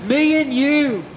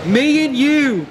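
Both takes have the same delivery.

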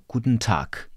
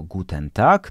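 First: Guten Tag with the E dropped, kutn tak; Guten Tag clipped to kutn, softer; right way. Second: Guten Tag with the E and a voiced G; Guten Tag said flat, full Polish E; wrong way. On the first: Teacher shows the correct German Guten Tag. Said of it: "tylko jako". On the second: Teacher shows the wrong Guten Tag. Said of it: "nie wymawiamy jako". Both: Shown as a demonstration.

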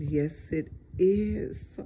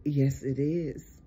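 First: "is" drawn out and lifted in pitch; slow affirmation, stretching "is"; emphatic repeat. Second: Said in the usual way. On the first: Real, not acted. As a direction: repeat it slowly, leaning long on "is".

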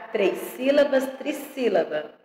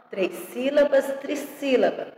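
Both takes have the same delivery.

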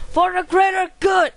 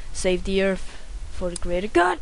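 First: Battle cry. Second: Said in the usual way. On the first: Pretend. Gamer rallying himself for the level, shouting. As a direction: yell it like charging into battle. Gamer repeats the title, yelling.

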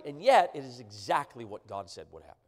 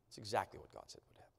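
First: Said in the usual way. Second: Much softer and quicker, almost under the breath; hushed repeat. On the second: Real, not acted. Preacher repeating to the congregation, hushed and rapid. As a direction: drop to a near murmur, quickly.

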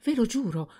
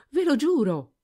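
First: Quick high pleading oath; hasty oath. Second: Higher, louder desperate cry; louder hasty oath. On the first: Servant swearing to her master, quick high oath. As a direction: blurt the oath. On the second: Servant swearing to her master, louder desperate cry. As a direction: shout the oath again, desperate. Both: A narrator's reading. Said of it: "La ragazza rispose precipitosamente".

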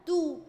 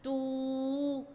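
First: "تو" as one short syllable; short vowel. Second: "تو" with the oo held long and level; long vowel. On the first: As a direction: cut the u of "تو" short. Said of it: "الحركات القصيرة بتتنطق على طول بسرعة". ("تو" بضمة قصيرة وسريعة) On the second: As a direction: stretch out the vowel of "تو". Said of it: "لما هيجي بعدها مد بالواو هتبقى". ("تو" ممدودة بالواو) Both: Shown as a demonstration.

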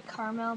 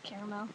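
First: Caramel said as CAR-mel; two-syllable caramel. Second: Caramel said as CARE-uh-mel; three-syllable caramel. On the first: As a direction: drop the middle vowel of caramel, car-mel. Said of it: "People say caramel". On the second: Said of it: "but I call it caramel". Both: Shown as a demonstration.

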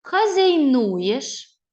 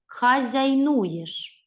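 First: Хазяйнуєш stretched very slowly and loud, rising; slow syllable reading. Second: Хазяйнуєш read very slowly, each syllable clear; slow repeat. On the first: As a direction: spell out Хазяйнуєш by sound. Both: Shown as a demonstration. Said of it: "Ще раз повторіть слово".

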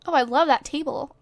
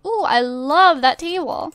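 First: Said in the usual way. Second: Gushing emphasis on the word "love"; stress on LOVE. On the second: Real, not acted. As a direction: lean hard and long on "love". Repeats the reaction with emphasis.

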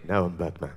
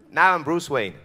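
First: Very low, soft superhero growl; Batman. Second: Said in the usual way. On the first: Shown as a demonstration. Showing the hero's voice against his everyday one, deep growl. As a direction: switch down into the masked hero's deep voice. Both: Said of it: "The guy who talks like that".

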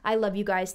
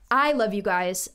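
First: Said in the usual way. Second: Slow, tender and sincere; warm and slow. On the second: Real, not acted. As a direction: say it slowly, meaning it.

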